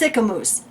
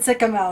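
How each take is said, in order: First: The last syllable rhymes with moose. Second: The last syllable rhymes with mouse. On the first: The speaker calls it right. "It's Sycamoose" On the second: The speaker calls it wrong. "spelled like mouse, so I would have said Sycamouse"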